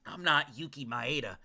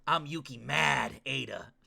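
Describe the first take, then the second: First: Said in the usual way. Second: "Mad" punched as its own long word; stress on Mad. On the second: Pretend. Streamer punning on Yuki's name, stressing "Mad". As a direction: lean on "Mad", drawn out and slow.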